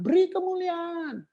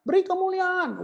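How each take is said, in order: First: Higher mock prompt to give glory; mock worship leader call. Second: Mock worship leader call. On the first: Preacher mimicking a leader cueing applause, higher mock voice. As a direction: parody the leader's cue for applause. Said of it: "terus kamu bilang". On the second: Preacher mimicking the applause cue again, higher and pushier. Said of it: "Kamu maksudnya itu kan?".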